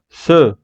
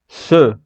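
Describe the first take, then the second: First: The vowel is a reduced French-style e. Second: The same.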